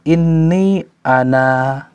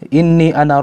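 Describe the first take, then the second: First: The final vowel is long before a stop. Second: The final vowel is short, running on. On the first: The reading stops at this word. "Tapi kalau kita berhenti, maka alifnya nampak" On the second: The reading continues without stopping. "Kalau kita baca secara apa namanya al-wasl tanpa berhenti"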